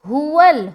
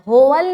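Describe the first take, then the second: First: The first vowel is a clear, pure u sound. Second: The first vowel is drawn toward an o sound. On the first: The speaker calls it right. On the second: The speaker calls it wrong.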